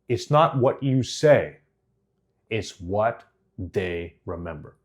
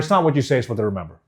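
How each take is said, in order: First: It is said slowly with clear pauses. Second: It is said quickly without pausing. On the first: The speaker calls it right. "all of a sudden I can slow down and say" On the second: The speaker calls it wrong. "Just doesn't land"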